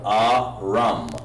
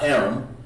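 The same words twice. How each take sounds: First: The first vowel is a full open 'ah' sound. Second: The first vowel is a short 'ay' sound. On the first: The speaker calls it right. "You have to give that A the full H sound" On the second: The speaker calls it wrong. "Not Aram"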